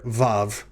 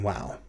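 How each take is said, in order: First: The name begins with a V sound. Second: The name begins with a W sound. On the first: This is the modern spoken pronunciation. "I'll be calling the letter Vav" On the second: This is the older pronunciation some scholars keep. "rather than Wow"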